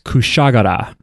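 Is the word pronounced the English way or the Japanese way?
Japanese. It is pronounced the Japanese way.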